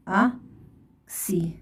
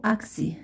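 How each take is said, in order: First: "أكسي" split into ak and si with a long pause; slow syllable dictation. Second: Said in the usual way. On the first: Shown as a demonstration. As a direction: say "أكسي" slowly, one syllable at a time. Teacher dictates syllables while writing.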